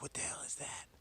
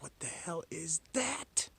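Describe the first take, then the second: First: Hushed, half-whispered disbelief; quiet retold "what on earth"; retold astonishment. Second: High, slow, drawn-out disbelief; exaggerated breathless amazement; retold astonishment. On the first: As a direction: quote your own baffled reaction softly. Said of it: "I was like". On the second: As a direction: stretch out the baffled question, rising high at the end. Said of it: "so I was like".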